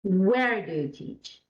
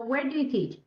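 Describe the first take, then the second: First: Slow question with "where" drawn out; stress on Where. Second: "where" given no special weight; robotic, no stress. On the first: Teacher showing sentence stress to the class, stress on "where". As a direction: lean hard on "where", then let it fall. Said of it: "So you put a stress on". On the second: Teacher demonstrating unnatural speech, robotic with no word stressed. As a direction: run "where do you teach" out evenly, mechanically. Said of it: "That's not very understandable". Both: Shown as a demonstration.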